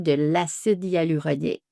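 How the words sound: It is said smoothly and confidently. The seller knows the product well. The speaker calls it right. "ça se fait avec beaucoup plus de fluidité si on dit"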